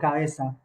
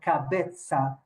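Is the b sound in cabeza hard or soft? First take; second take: soft; hard. First: The b is soft and unmarked. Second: The b is a strong, marked stop. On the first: "no he pronunciado cabeza" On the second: "yo he pronunciado cabeza"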